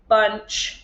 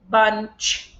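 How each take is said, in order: First: The word is said in a flat mechanical voice. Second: The word is said in a flat mechanical voice.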